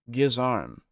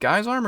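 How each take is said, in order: First: The first syllable sounds like 'giz'. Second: The first syllable sounds like 'guy'. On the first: The speaker calls it right. "My apologies then" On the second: The speaker calls it wrong. "I might be saying it wrong"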